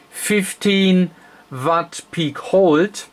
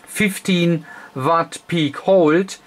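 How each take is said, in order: Both takes have the same delivery.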